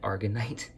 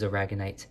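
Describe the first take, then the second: First: The word is said with three syllables. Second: The word is said with four syllables. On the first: The speaker calls it wrong. "I actually said it wrong" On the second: The speaker calls it right. "but this is aragonite"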